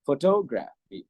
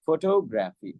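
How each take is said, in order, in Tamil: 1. சொல் முழுவதும் ஏற்றம் பின்னர் இறக்கம் காணப்படுகிறது. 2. சொல் முழுவதும் ஏற்றம் பின்னர் இறக்கம் காணப்படுகிறது.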